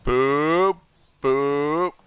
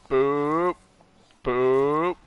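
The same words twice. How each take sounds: The two takes are said the same way.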